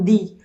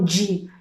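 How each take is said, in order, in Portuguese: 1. O D é um som de D forte e simples. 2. O D soa como 'dj' antes da vogal 'ee'. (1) "eles falam de" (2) "Eles não falam di, de, como a gente fala"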